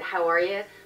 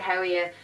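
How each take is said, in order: First: It is said in a Wicklow accent. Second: It is said in a Dublin accent. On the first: "I'm from Wicklow, so I'd pronounce it how are you" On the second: "my husband would pronounce it how are you, because he's from Dublin"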